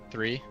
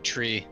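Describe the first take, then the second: First: It begins with a soft 'th' sound. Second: It begins with a hard 't' sound.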